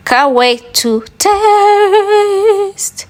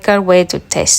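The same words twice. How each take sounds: First: "can't wait to taste" sung out very high and very slow; dreamy drawn-out sing-song over the finished omelette; sing-song craving. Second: Said in the usual way. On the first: Real, not acted. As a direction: croon "taste" long and high, hungry.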